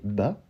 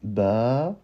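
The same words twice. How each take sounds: First: The vowel is short. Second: The vowel is drawn out long. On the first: "on avait le ba avec une simple fatha au-dessus" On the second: "pour allonger le ba et obtenir un ba"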